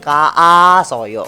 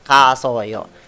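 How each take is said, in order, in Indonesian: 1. Vokal a diucapkan dua kali berturut-turut. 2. Vokal a hanya diucapkan sekali saja. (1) "sebenarnya kan ada a dua kan, tapi kan nggak mungkin" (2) "Kita pakai satu aja jadinya"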